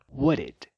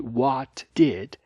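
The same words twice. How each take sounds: First: The two words are reduced and run together. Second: Both words are said fully and separately. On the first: "vira what did" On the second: "perceba que what did vira"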